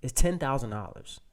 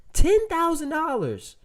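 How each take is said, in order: First: Said in the usual way. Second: Much higher and louder, slowly; emphatic. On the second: Shown as a demonstration. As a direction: hit every word for effect.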